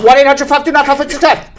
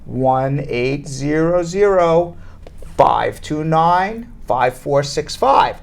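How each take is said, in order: First: The number is said very quickly. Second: The number is said very slowly. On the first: "I'll say it really fast" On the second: "Or I could say it really slowly"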